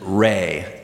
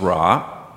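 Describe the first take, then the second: First: The name ends with an 'ay' vowel sound. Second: The name ends with an 'ah' vowel sound. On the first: The speaker calls it right. "a deity named Re" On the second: The speaker calls it wrong. "commonly mispronounced today as Ra"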